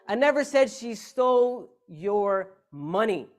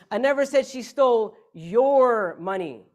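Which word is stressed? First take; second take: money; your. First: The stress is on "money". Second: The stress is on "your".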